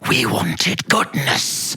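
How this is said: It sounds menacing and evil.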